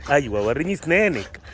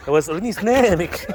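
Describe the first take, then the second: First: Said in the usual way. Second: Much higher, sing-song coaxing of the dog; high coaxing pet voice. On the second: Real, not acted. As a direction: coax the dog up high and playful. Coaxing dog to show teeth.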